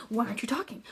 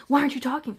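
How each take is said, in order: First: Said in the usual way. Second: Louder, pressing repeat of the question; aggressive. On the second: Retold or imitated. Imitating her date badgering her for being silent, aggressive. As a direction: imitate a pushy man demanding an answer. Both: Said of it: "he's just being so aggressive about it".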